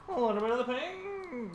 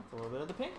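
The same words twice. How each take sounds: First: Pitched way up, singsong; high put-on voice. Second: Said in the usual way. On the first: Artist muttering to herself in a high silly voice. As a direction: lift it high and playful. Drawing, repeats line in odd voice.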